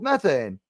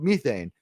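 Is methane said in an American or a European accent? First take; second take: American; European. First: Methane is said in an American accent. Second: Methane is said in a European accent.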